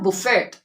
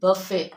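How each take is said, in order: First: A T sound is pronounced at the end. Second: The T sound is silent at the end. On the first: The speaker calls it wrong. "It's not बुफेट" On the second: The speaker calls it right. "It is बफे"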